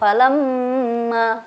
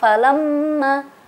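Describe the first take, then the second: First: The nasal m sound is held long. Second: The nasal m sound is cut short. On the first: The speaker calls it right. "mesti ditahan ya, dengung" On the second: The speaker calls it wrong. "tidak ditahan"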